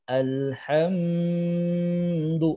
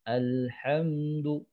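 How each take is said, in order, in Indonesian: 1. Bunyi m ditahan lama. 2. Bunyi m hanya ditahan sebentar sekali. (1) "ini menahannya banyak" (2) "Jadi sebentar saja"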